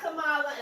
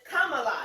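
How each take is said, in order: First: The first syllable does not sound like comma. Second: The first syllable sounds like the word comma. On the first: The speaker calls it wrong. "It's not Kamala" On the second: The speaker calls it right. "comma, like a comma ... but it's Kamala"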